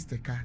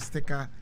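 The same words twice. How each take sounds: First: It is said in a Kumasi accent. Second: It is said in a standard accent. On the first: "Kumasi, ... they say sticker" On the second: "instead of sticker"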